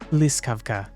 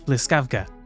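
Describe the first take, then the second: First: The stress falls on the standard syllable. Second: The stress falls on a non-standard syllable. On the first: The speaker calls it right. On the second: The speaker calls it wrong.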